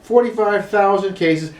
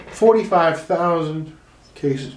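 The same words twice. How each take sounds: First: Said in the usual way. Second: Drawn-out, weighty delivery; slow, grave announcement; slow dramatic reading. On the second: Shown as a demonstration. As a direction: let each word land slowly. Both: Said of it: "Go back".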